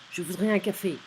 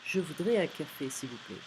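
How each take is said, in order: First: Curt, loud demand with falling end; rude. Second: Less rude. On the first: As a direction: bark the order bluntly. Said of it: "Sounds a bit rude". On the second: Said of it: "Less rude". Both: Shown as a demonstration.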